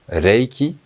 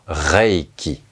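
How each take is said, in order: First: It begins with a tapped, L-like sound. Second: It begins with a French throaty R sound. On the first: The speaker calls it right. "C'est un L. C'est Reiki" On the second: The speaker calls it wrong. "et non pas Reiki"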